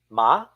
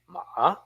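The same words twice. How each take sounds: First: The pitch starts low and rises upward. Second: The pitch dips and curls like a question. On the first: "Start from the bottom, then go up" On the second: "Curl it like a question mark"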